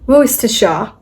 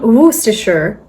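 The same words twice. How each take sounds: First: It is said in a British accent. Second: It is said in an American accent. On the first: "in a British accent" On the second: "Or in an American one"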